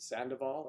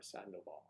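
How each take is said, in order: First: "Sandoval" with a short, reduced middle "uh"; alternative name pronunciation. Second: "Sandoval" with a full middle "oh"; alternative name pronunciation. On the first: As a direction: say "Sandoval" as SAN-duh-val. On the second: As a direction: say "Sandoval" as san-doh-val. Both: Shown as a demonstration. I don't know where the accent goes.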